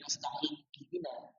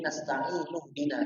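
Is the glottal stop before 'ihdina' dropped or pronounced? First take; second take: pronounced; dropped. First: A glottal stop separates the two words. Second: The two words run together without a glottal stop. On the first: The speaker calls it wrong. "harusnya kan nggak boleh nasta'in ihdina" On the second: The speaker calls it right. "Harus menjadi nasta'in ihdina"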